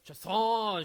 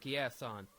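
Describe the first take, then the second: First: The name is said with a French accent. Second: The name is said with an English accent.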